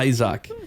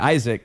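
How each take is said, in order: First: It is said with a Spanish accent. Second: It is said with an English accent.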